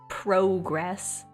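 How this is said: It is said with a Canadian accent. "if I were to be truly Canadian"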